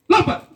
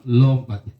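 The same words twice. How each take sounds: First: Loud, high barked command; shouted order. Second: Said in the usual way. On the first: Retold or imitated. Commander orders the recruit to jump, shouting. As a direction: yell it at the recruit.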